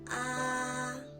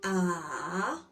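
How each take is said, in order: First: The syllable is said in the first tone. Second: The syllable is said in the third tone. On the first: "The first tone sounds ah" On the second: "The third tone goes this way"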